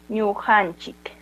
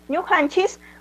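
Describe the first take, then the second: First: The word ends with a k sound. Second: The word ends with an s sound.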